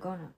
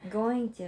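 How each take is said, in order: First: The words are run together into one reduced word. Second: The two words are said separately and fully.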